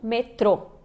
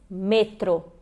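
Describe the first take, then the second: First: The stress is on the last syllable. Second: The stress is on the first syllable. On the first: The speaker calls it wrong. "e não metrô" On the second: The speaker calls it right. "ela é uma paroxítona também"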